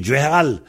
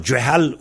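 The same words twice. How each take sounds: First: "Djehal" said djeharal, an added r syllable; form with r. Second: "Djehal" in two syllables, with no r; form without r. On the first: Teacher comparing Vannetais variants, "Djehal" lengthened to djeharal. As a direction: add -ar- before the end of "Djehal". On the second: Teacher comparing Vannetais variants, "Djehal" without the r. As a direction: leave out any r in "Djehal". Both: Shown as a demonstration. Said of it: "Il y a qu'un R de différence".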